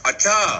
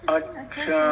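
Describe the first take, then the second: First: It sounds angry and loud. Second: It sounds thoughtful and drawn out.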